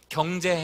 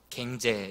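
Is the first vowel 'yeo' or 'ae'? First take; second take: yeo; ae. First: The first vowel sounds like 'yeo'. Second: The first vowel sounds like 'ae'. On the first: "경제 해봐" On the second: "이렇게 하면 이쪽으로 나와"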